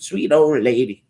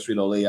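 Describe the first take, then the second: First: Put-on high, sweet old-lady voice. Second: Said in the usual way. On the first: Shown as a demonstration. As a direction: put on a sweet granny voice, pitched up. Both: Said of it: "when I think of sweet old lady".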